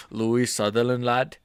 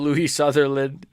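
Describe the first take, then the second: First: Mock Scottish lad; half-baked Scottish accent; bad Scottish accent. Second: Said in the usual way. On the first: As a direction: try a rough Scottish accent on the name. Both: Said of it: "I can't do a Scottish accent".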